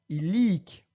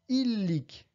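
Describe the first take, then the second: First: The stress is on the last syllable. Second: The stress is on the first syllable. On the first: The speaker calls it right. "mais bien illic" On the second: The speaker calls it wrong. "et non pas illic"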